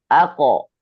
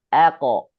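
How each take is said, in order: The two takes are said the same way.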